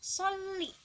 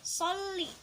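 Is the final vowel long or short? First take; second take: short; short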